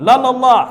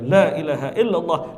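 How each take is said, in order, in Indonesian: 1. Diucapkan sangat cepat, kata-katanya menyambung. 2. Diucapkan dengan tempo sedang, agak cepat. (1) "Ada yang lari gigi lima, ... Tak apa-apa lagi yang dibaca" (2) "Ada yang pakai gigi tiga"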